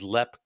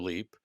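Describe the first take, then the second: First: The vowel is short, like 'lep'. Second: The vowel is long, like 'leap'. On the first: This is how locals in Ireland say it. "locally it is known as Lep Castle in Ireland" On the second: This is the American way of saying it. "you're using the American pronunciation"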